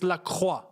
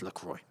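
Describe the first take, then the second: First: The name is said with a French pronunciation. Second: The name is said with an English pronunciation. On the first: "in the French accent, technically, it's Lacroix" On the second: "how do they actually say his name then? LaCroix. Okay, it's LaCroix"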